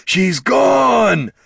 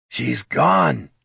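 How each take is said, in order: First: Long, high troll shout; panicked bellow. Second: Distraught troll. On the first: Troll storming around the camp, panicked bellow. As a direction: wail it at full volume. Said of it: "bellowed Thane". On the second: Troll telling the dwarf she left, distressed lament. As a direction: tell a friend of the loss in distress. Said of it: "said Thane". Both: A narrator's reading.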